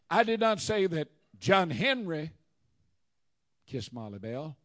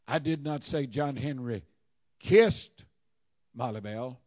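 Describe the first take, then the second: First: The stress falls on 'John Henry'. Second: The stress falls on 'kissed'. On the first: Someone else did the kissing. "It was Joe Blow" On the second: He did something else to her. "Maybe he rubbed her feet"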